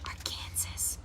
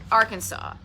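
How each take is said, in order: First: Whispered Arkansas as ar-KAN-ziss, like Kansas; very soft, furtive Arkansas said ar-KAN-sas; wrong pronunciation. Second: Said in the usual way. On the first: Shown as a demonstration. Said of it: "say it wrong 'cause it looks like". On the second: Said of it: "I'm so afraid I'm going to say it wrong".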